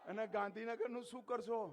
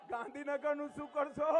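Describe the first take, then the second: First: Quiet question. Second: Shouted question. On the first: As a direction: ask it softly first, almost to yourself. (ધીમા અવાજે પ્રશ્ન) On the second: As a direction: call the question out to the whole crowd. (ભીડને બૂમ પાડીને પૂછવું) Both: Real, not acted. Speaker repeats the question louder.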